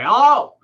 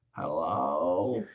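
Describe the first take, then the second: First: A barked hello, much higher and louder; gruff worker's loud hello. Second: A low, soft, drawn-out hello; sleepy slow hello. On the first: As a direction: answer the phone like a busy construction worker. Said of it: "a construction worker and he's like". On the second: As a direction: answer like someone slow and unhurried. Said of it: "I'm gonna slow way down with that person". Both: Retold or imitated.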